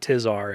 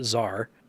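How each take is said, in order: First: The name begins with a t sound. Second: The name begins without a t sound. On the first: The speaker calls it wrong. "I was pronouncing that wrong. It's not Tizar" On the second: The speaker calls it right. "it's just Zar"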